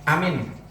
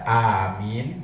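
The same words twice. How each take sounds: First: Only the first vowel is held long. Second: Both vowels are held long. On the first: "a-nya panjang tapi min-nya pendek" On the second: "dua-duanya panjang, a-nya panjang, min-nya panjang"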